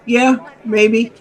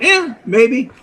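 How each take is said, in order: First: Higher, offhand mock shrug; imitating casual dismissal. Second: Higher offhand shrug through a laugh; imitating casual dismissal, laughing. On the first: Sam shrugging off the risk to the narrator, mock offhand. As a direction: brush off the danger like it's nothing. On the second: Sam shrugging off the danger, mock offhand with a laugh. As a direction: toss it off like it means nothing. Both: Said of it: "that's the way he looked at it".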